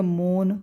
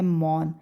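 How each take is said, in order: First: मौन wrongly said with a closed 'o', like 'mone'; mispronounced o vowel. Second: मौन with an open 'au', like 'mawn'; correct au vowel. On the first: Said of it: "ये तो गलत हो गया". (मौन को गलत 'मोन' बोलें) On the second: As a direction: say मौन as 'mawn', not 'mone'. तो अगर हमने बोल दिया. (मौन में खुली 'औ' की ध्वनि) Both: Shown as a demonstration.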